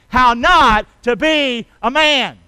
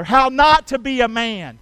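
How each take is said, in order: First: Slow, loud, word by word; big spaced-out beats for a crowd to join; say-along. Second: Said in the usual way. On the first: Shown as a demonstration. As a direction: lead the congregation in chanting it. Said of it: "Can you say that with me today?". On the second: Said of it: "Can you say that with me".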